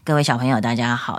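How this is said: The voice sounds pressed down and compressed. The speaker calls it wrong. "那你听到我声音压下去，就是这个声音。"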